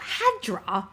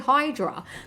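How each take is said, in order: First: The first vowel sounds like 'ah'. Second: The first vowel sounds like 'eye'. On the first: It imitates an unusual pronunciation heard in the game. "That's a weird way of saying it" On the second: It is the usual pronunciation others used. "other people did say Hydra"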